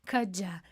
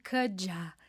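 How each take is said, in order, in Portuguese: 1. As duas palavras se unem em um som só, reduzido. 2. As duas palavras se unem em um som só, reduzido.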